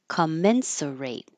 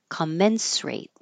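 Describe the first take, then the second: First: An extra 'uh' vowel is pronounced in the word. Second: The extra 'uh' vowel is dropped from the word. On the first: "With it" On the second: "Without it"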